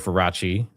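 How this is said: The name is pronounced with Italian sounds.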